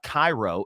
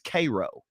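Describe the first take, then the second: First: It is pronounced like the Egyptian city. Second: It is pronounced the local Kentucky way. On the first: The speaker calls it wrong. "not Egyptian names. It's not Cairo" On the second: The speaker calls it right. "It's Cairo"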